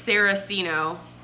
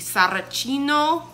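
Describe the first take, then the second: First: The name is said with an anglicized pronunciation. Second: The name is said with an Italian pronunciation. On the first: This is how people commonly say it. The speaker calls it wrong. "layman, we say it's" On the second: This is the original pronunciation. The speaker calls it right. "it is actually Italian in origin, and then it would be"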